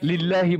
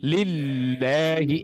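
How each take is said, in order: First: The doubled L is said quickly, not held. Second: The doubled L is held for a moment. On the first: The speaker calls it wrong. "লিল্লাহি বলবো না" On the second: The speaker calls it right. "একটু ধরে রাখবো"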